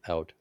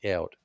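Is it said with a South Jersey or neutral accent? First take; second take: neutral; South Jersey. First: It is said with a neutral accent. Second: It is said with a South Jersey accent.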